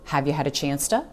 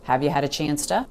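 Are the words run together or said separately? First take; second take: run together; run together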